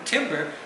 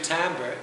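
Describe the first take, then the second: First: It sounds like the wood word, 'timber'. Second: It sounds like 'tamber', with an 'a' vowel. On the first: It suggests wood cut by a lumberjack. The speaker calls it wrong. "when I hear tam- timber, I think lumberjack" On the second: It clearly means the tone of a voice. The speaker calls it right. "if you say timbre, there's no question what you're saying"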